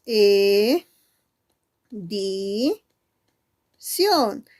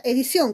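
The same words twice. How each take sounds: First: "E, di, ción" held, with pauses between; syllable by syllable. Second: Said in the usual way. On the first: Shown as a demonstration. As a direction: count out "E", "di", "ción" as separate syllables. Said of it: "¿Cuántas sílabas?". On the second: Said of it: "es la palabra edición".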